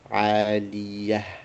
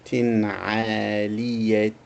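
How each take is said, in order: First: The word ends softly in an 'h' sound. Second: The word ends with a 't' and a vowel. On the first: The speaker stops after this word. "We reduce it to just a ha" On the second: The speaker carries on to the next word. "If we continue"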